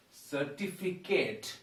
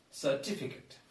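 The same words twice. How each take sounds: First: Slow 'Certificate' ending in 'Kate'; common mispronunciation. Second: Soft 'certificate' with short final 'kut'; correct pronunciation. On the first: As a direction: draw out the end of 'Certificate' as 'fi-KATE'. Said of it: "People say certificate". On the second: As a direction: say 'certificate' softly, ending 'fi-kut'. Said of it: "It is actually". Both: Shown as a demonstration.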